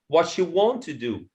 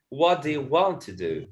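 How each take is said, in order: First: The first three words run together as one. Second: The first three words are said separately.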